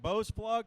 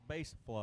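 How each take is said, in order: First: The first word has an 'oh' vowel. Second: The first word has an 'ay' vowel. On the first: The speaker calls it wrong. "It's so looks like Bose plug" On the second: The speaker calls it right. "but it's base plug"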